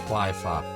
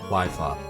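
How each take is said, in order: The two takes are said the same way.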